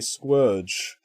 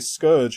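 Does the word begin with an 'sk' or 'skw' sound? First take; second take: skw; sk. First: The word begins with a skw sound. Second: The word begins with a plain sk sound. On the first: This is how the characters say it. "they all say squurge" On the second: This is the expected pronunciation. "say scourge"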